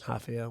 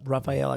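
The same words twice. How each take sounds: First: The name begins with an H-like sound. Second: The name begins with an English R sound.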